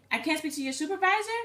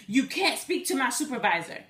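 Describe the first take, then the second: First: I CAN'T SPEAK TO YOUR SUPERVISOR as a high, rising question; questioning echo. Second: Mildly indignant mock refusal; upset scammer. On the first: Retold or imitated. Caller challenging the scammer, SUPERVISOR rising in a questioning echo. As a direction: echo it back in disbelief, pitch lifting to the end on SUPERVISOR. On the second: Scammer refusing her request for a supervisor, mildly upset. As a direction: imitate a caller getting testy. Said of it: "really getting upset".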